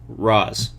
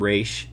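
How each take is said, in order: First: The name ends with a 'z' sound. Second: The name ends with a 'sh' sound. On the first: This is how the film trilogy says it. "this whole trilogy, they call him uh, Raz" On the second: This is how the TV show says it. "Gotham T V show they call him Raish"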